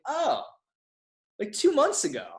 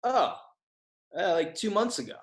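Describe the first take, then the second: First: Squeaky-high, hammed-up dawning realization; heightened sheepish realization. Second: High "oh", then a hesitant answer; sheepish realization. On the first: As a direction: replay the embarrassed answer way up high. Retold realisation, second time heightened. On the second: Retold or imitated. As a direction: act out it dawning on you, mildly. Retold sheepish realisation, first answer.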